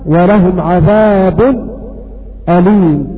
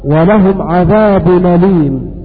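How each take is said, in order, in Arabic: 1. يأتي سكتة قصيرة قبل الهمزة. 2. تسقط الهمزة، وتلتحق حركتها بالحرف. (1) "والسكت" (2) "والنقص"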